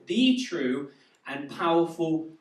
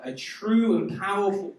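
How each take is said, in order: First: THE drawn out as "thee"; stress on THE. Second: Said in the usual way. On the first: Real, not acted. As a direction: lean slowly on "the", said "thee". Corrects "a" to "the.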